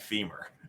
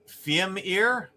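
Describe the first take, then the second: First: It sounds like the word 'femur'. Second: It ends with a 'meer' sound. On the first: This is how the group has always pronounced it. "We've always pronounced that femur" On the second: This is how someone else pronounces it. "You would pronounce that Femir?"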